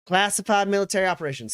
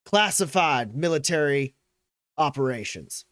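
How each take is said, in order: First: Quick, higher, louder echo; pointed, rapid challenge; Graves. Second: Measured official accusation; McGarrett. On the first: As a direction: throw his words back at him fast. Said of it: "She goes". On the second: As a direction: colonel formally listing the charges. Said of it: "uh, he goes". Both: Acted.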